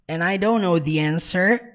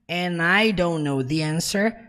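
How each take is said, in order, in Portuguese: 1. As palavras são emendadas e ditas rapidamente. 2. As palavras são emendadas e ditas rapidamente.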